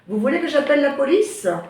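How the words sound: The voice rises at the end.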